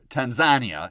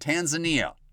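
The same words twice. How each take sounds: First: It is said with a local Tanzanian pronunciation. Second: It is said with an ordinary English pronunciation.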